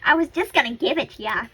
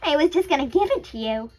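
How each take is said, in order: First: The voice is raspy, like Natsuki's. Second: The voice is smooth, not raspy.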